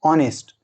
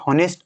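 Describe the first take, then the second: First: The word begins with a vowel sound. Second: The word begins with an h sound. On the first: The speaker calls it right. "ऑनेस्ट असा करायचा" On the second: The speaker calls it wrong. "याचा उच्चार हॉनेस्ट असं करायचं नाही"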